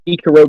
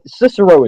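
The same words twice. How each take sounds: First: The name is said in a Roman-style way. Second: The name is said in the usual English way. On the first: "that's sort of how the Romans said it" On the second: "Cicero is right too"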